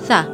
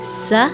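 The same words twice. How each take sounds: First: The consonant is soft, without a hiss. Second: The consonant is a hissing s sound. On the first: The speaker calls it right. "हमने पढ़ना है सा" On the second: The speaker calls it wrong. "सा अगर हम पढ़ेंगे तो वो सीन बन जाएगा"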